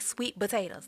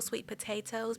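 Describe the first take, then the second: First: It is said quickly and casually. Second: It is said slowly and carefully.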